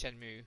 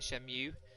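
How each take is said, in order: First: The second syllable is not said as 'mew'. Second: The second syllable is said as 'mew'. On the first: The speaker calls it right. "It's Shenmue" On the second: The speaker calls it wrong. "I always pronounce it Shenmue. M E M U E to me is Mew"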